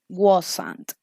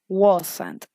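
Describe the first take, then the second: First: It is said as one contracted word. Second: It is said as one contracted word.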